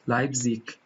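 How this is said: The word ends with a light k sound. This is heard in other accents such as Austrian or Swiss.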